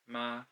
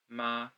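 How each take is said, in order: First: It is said with the first tone. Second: It is said with the first tone.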